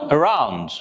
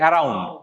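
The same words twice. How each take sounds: First: The r is said in an English way. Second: The r is said in a Bengali way. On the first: The speaker calls it right. "But the pronunciation should be" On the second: The speaker calls it wrong. "আমরা সাধারণত বাঙালিরা বলে হচ্ছে"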